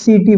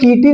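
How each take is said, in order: First: The word begins with an s sound. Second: The word begins with a k sound. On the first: The speaker calls it right. "सीटी बोले" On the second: The speaker calls it wrong. "यहाँ पे हम लोग कीटी नहीं बोले"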